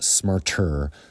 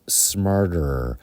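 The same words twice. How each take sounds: First: The T is pronounced crisp and clear. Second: The T is softened into a quick tap. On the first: The speaker calls it wrong. "so it's not smarter" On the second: The speaker calls it right. "the T kind of softens"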